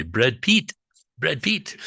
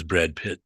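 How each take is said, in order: First: Put-on Brad Pitt in a light Tibetan accent, rising high. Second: Said in the usual way. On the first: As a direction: imitate Tibetan friends saying Brad Pitt. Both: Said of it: "as our Tibetan friends would say".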